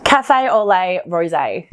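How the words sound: It is said in an Australian accent.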